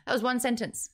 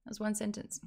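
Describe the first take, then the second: First: Said once more with was stressed; read aloud again. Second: Softer, with one stressed; hushed echo of the line; quieter repeat. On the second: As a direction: That was one sentence dropped to a soft aside, one stressed. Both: Shown as a demonstration.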